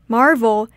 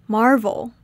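No difference in how they are said.

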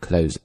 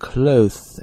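First: The th is dropped, ending straight in z. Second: A th sound comes before the final z. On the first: "干脆 th 这个音就不读了，直接过渡到 z 这个声音" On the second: "先去咬那个舌头然后再发那个字的声音，这是 clothes,的确非常的复杂，但是这也是正确的读法"

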